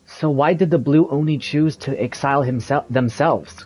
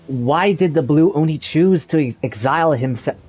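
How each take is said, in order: First: Said in the usual way. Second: Trips over ex- and restarts the word; a flubbed read that catches on exile; stumbled take. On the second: Real, not acted. Actor fumbling exile in a recording booth, stumbling.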